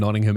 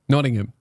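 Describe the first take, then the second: First: It is said in a plain Australian accent. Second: It is said in an imitated English accent.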